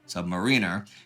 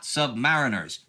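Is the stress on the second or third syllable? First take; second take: third; second. First: The stress is on the third syllable. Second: The stress is on the second syllable. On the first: The speaker calls it right. "with stress on third syllable" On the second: The speaker calls it wrong. "not submariners"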